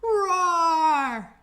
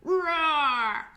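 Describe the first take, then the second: First: Big louder roar, all out; loud lion roar. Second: Put-on playful roar for children; lion roar. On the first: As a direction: roar as loud as you can. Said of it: "Make it as loud as you can". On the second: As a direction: show the kids a lion roar. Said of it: "A lion roars just like this". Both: Shown as a demonstration.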